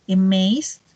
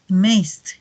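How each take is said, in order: First: Said in the usual way. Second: "amazed" falling, closed by a soft t-like d; soft T-like ending. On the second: Shown as a demonstration. Teacher contrasts base and past, "amazed" with soft T-like ending. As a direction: add a gentle stop ending "amazed". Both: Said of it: "Suena un poquito como una T".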